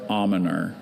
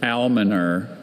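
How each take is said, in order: First: Almoner with a silent L, AH-muh-ner; alternate pronunciation. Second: Almoner with the L sounded, AL-muh-ner; first pronunciation. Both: Shown as a demonstration. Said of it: "Almoner or almoner".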